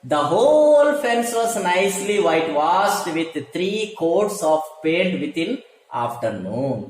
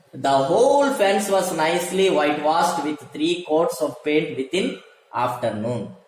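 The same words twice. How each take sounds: No difference in how they are said.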